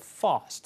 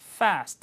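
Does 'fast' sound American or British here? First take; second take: British; American. First: The word is said with a British accent. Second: The word is said with an American accent. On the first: The speaker calls it right. "fast 이렇게 발음하죠" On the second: The speaker calls it wrong. "fast 아니고"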